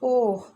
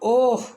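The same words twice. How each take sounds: First: The voice sounds sad. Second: The voice sounds angry.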